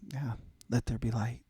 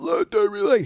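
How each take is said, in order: First: It is said quietly and casually. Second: It is yelled loudly.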